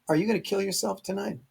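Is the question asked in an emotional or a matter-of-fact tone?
matter-of-fact. The question sounds plain and matter-of-fact. The speaker calls it right. "It's it's a straight up question"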